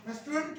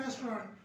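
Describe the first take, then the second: First: रेस्टोरेंट with the t dropped; mock the wrong रेस्टोरेंट; wrong pronunciation. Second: रेस्टोरेंट with a barely touched t; slight t sound. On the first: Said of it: "नहीं कहना आपने". (गलत उच्चारण रेस्टोरेंट) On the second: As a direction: soften the t in रेस्टोरेंट. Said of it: "टी की आवाज बड़ी slight सी". (हल्के टी के साथ रेस्टोरेंट) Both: Shown as a demonstration.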